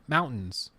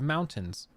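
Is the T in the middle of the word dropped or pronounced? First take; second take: dropped; pronounced. First: The middle t sound is dropped. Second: The middle t sound is clearly pronounced. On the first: This is how people from the region say it. The speaker calls it wrong. "we say mountains" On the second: This follows the spelling more precisely. The speaker calls it right. "there is a T there"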